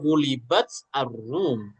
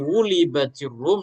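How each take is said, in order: First: The t is not joined to rum by a vowel. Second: An i vowel joins the t to rum. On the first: The speaker calls it wrong. "nggak mungkin gulibat ar-rum" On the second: The speaker calls it right. "mendatangkan harkat yang dianggap paling ringan"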